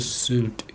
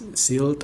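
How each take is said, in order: First: The vowel is a rounded ü sound. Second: The vowel is a plain i sound. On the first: The speaker calls it right. "tapi Sylt" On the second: The speaker calls it wrong. "bukan Silt atau apa"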